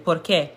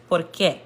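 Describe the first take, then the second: First: Said in the usual way. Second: "qué" set apart and stressed in "por qué"; "por qué" with an accented final "qué"; emphasis on qué. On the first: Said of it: "just say regularly". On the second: Shown as a demonstration. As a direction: put the weight on "qué" in "por qué". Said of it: "you put more emphasis on it".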